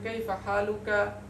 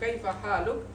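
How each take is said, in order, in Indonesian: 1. Vokal akhir diucapkan di akhir. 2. Vokal akhir dihilangkan, berakhir dengan konsonan. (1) "tidak kita katakan" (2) "Karena kita wa waqafkan, itu lebih akhaf"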